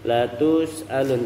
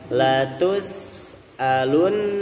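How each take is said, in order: First: The lips stay pushed forward throughout. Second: The lips return from rounding to neutral. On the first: The speaker calls it wrong. "jangan sampai monyong terus ya, jangan sampai latus alun" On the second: The speaker calls it right. "tapi balikin mulut kita"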